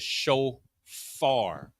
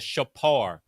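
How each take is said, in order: First: The middle consonant is an f sound. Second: The middle consonant is a p sound. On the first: The speaker calls it wrong. "whenever you hear a fa, a fa sound or an F sound, you know that that's fake" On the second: The speaker calls it right. "It's called the shapar"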